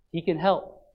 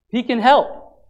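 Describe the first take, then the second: First: He can help said low and soft; soft first take. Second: Said in the usual way. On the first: Shown as a demonstration. Preacher quietly promising the congregation that God can help. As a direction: breathe the words gently.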